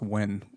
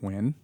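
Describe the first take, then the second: First: The name is said with an American accent. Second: The name is said with a Vietnamese pronunciation. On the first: "That's like the American accent" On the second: "that's how you actually pronounce it"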